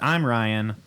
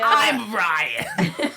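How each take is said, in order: First: It is said in his ordinary speaking voice. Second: It is said in a put-on, somewhat nasal voice.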